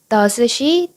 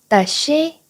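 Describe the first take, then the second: First: The s sound is pronounced twice, separately. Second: The s sound is pronounced only once, linked. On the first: The speaker calls it wrong. "does she 라고 발음하면 어려울 수밖에 없어요" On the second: The speaker calls it right. "s를 한 번만 발음해 주세요"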